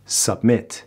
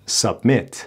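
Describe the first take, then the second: The two takes are said the same way.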